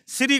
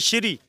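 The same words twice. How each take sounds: First: It is clipped short, without the full 'sh'. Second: It starts with a full, drawn-out 'sh' sound. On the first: The speaker calls it wrong. "श्री कर देते हो, सीधा short मारते हो" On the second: The speaker calls it right. "बड़े शीन से और बोला है मैंने"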